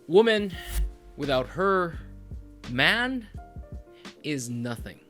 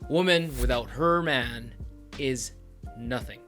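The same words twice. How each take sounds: First: It pauses after 'woman' and after 'her'. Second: It flows with no pause after 'her'.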